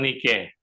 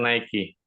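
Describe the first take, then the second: First: It is said with a local Tondano pronunciation. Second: It is said with an American English pronunciation. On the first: This is the name of a small lake fish. "Kalau orang Tondano bilang Nike" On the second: This is the name of the American brand. "Kalau orang Amerika bilang Nike"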